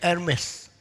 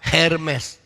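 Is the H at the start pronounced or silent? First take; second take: silent; pronounced. First: The word is said without sounding the initial H. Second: The word is read letter by letter, H sounded. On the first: The speaker calls it right. "其实应该读 Hermes" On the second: The speaker calls it wrong. "你们照着 H E R M S Hermes"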